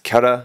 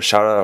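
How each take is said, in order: First: The word begins with a k sound. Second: The word begins with a sh sound. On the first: The speaker calls it right. "this is pronounced Kara" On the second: The speaker calls it wrong. "or Shara"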